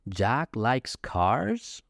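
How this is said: The voice rises at the end. The speaker is surprised. "that's like a surprise, right? ... You see how the intonation goes up at the end of the sentence?"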